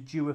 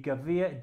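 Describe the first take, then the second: First: The name is said with an English pronunciation. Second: The name is said with a German pronunciation. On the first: "the English and American pronunciation" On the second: "in German the pronunciation would be"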